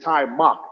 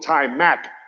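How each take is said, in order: First: The last syllable rhymes with 'duck'. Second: The last syllable rhymes with 'back'. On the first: This is how the name is properly said. The speaker calls it right. "That's the proper pronunciation" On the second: This is how most people say the name. The speaker calls it wrong. "people call him Ty Mac"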